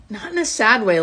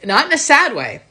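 First: Said in the usual way. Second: Higher and louder, pressing "not in a sad way"; emphatic repeat. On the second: Real, not acted.

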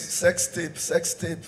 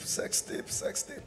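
First: Said in the usual way. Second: Breathy whispered repeat of sex tape. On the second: Acted. Comedian to the crowd, whispering the scandal. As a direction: let it fade into a whisper.

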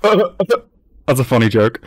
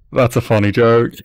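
First: Slow, laughing through every word; amused laugh-talk. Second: Said in the usual way. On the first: Real, not acted. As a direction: chuckle it out slowly.

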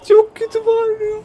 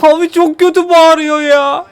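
First: Much higher, softer squeal mimicking the scream; squeaky mock scream voice. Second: Said in the usual way. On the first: (çığlığı taklit eden ince ses)

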